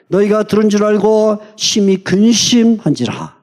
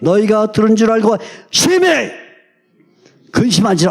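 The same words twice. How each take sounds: First: It is read without strong emphasis on any word. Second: The word 심히 is read with strong emphasis.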